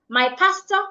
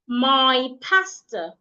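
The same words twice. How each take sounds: First: The word 'my' is said quickly. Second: The word 'my' is drawn out slowly. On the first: The speaker calls it wrong. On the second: The speaker calls it right. "I have to go slowly"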